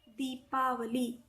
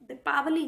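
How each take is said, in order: First: The first vowel is long. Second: The first vowel is short. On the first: The speaker calls it right. "बड़ी की मात्रा लगानी है" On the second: The speaker calls it wrong. "दीपावली नहीं होता है"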